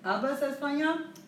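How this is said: The voice rises at the end. It asks a question.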